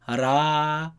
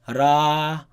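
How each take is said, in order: The two takes are said the same way.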